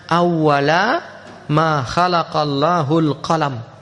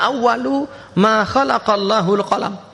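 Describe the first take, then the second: First: The first word ends with an a vowel. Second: The first word ends with a u vowel. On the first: It means at the time when the pen was created. The speaker calls it right. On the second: It means the pen was the first creation. The speaker calls it wrong. "bukan dibaca awalu"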